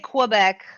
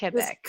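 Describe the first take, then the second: First: It is pronounced with an English-style sound. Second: It is pronounced with a French-style sound. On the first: "Some people say Quebec" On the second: "the French way to say it is"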